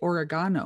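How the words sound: It is said with a British pronunciation. This is how British people say it. "the Brits say oregano"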